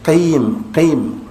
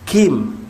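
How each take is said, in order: First: The first consonant is made deep at the back. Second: The first consonant is made further forward. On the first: The speaker calls it right. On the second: The speaker calls it wrong. "bukan kim"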